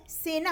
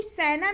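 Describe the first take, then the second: First: सेना with close "e", as sena; correct सेना. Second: सेना with open "ai", as saina; mispronounced सेना. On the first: Teacher gives the right form, सेना as sena. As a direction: keep a pure long e in सेना. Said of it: "सेना होता है". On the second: Teacher rejecting a common error, सेना said as saina. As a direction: widen the vowel of सेना to ai. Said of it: "सेना नहीं होता है". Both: Shown as a demonstration.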